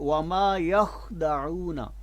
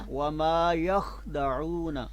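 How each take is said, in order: The two takes are said the same way.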